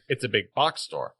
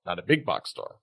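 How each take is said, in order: First: Box stressed in "It's a big box store". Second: Big stressed in "not a big box store". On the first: Friend correcting emphasis, box hit harder. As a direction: lean on "box", not "big". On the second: Friend mocking wrong stress, big hit harder. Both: Shown as a demonstration. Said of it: "the emphasis".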